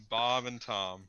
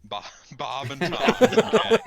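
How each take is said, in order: First: Said in the usual way. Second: Slow, loud laugh through the names; cracking up at the silly names. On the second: Real, not acted. Player laughing as he repeats the NPC names.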